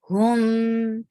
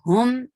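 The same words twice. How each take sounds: First: The m sound is held a little longer. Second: The m sound is stopped abruptly. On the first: The speaker calls it right. "keep the sound little longer and don't stop it abruptly" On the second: The speaker calls it wrong. "It's not hum, never"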